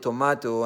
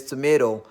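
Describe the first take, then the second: First: "tomato" as "to-mah-to", with a clear T; broad A in "tomato"; home Nigerian pronunciation. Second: "tomato" as "to-may-do", with an "ay"; Canadian pronunciation. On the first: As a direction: say "tomato" with an "ah" in the middle. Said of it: "back there at home, we call it". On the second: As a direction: say "tomato" the North American way, last T as D. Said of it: "he come here and says tomato". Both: Shown as a demonstration.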